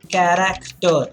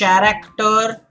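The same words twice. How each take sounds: First: The word begins with a K sound. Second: The word begins with a CH sound. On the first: The speaker calls it right. "for K you have character" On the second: The speaker calls it wrong. "You do not say character"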